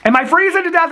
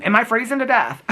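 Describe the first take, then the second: First: Higher, louder mock alarm; hammed-up panic about freezing, pitched up and loud. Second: Said in the usual way. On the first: Joking about freezing, asks twice.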